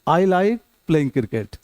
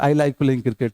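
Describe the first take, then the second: First: There is a short pause after "I like". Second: It is said in one go, flat, without pausing. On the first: The speaker calls it right. "यहां थोड़ा रुकना है। ... एक बार में नहीं बोलना है।" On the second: The speaker calls it wrong. "ऐसा नहीं बोलना है ... मोनोटोन नहीं होना चाहिए।"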